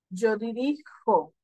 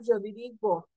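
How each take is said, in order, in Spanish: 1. La consonante antes de la o final es una j gutural. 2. La consonante antes de la o final es una g dura. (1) "Lo cambio por una J" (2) "si lo dejo con G, va a quedar yo dirigo"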